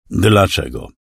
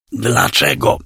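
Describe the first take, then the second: First: Said in the usual way. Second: Hoarse croaking whisper; croaked. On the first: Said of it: "raz jeszcze". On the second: A narrator's reading. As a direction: croak the word out, voiceless. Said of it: "zaskrzeczałem raz jeszcze".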